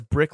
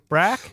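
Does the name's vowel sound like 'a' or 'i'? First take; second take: i; a. First: The name has a short i vowel. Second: The name has a flat a vowel. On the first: "she says Brick like Brack" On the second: "She pronounces it Brack"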